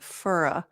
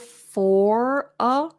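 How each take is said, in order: First: The words are said in a reduced, linked form. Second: The words are said in full, unreduced form. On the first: "a more reduced form that Americans use" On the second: "instead of for a"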